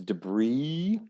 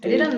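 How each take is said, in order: First: It is said in a North American accent. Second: It is said in a British English accent. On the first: "in North American English, it's debris" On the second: "U K English would say debris"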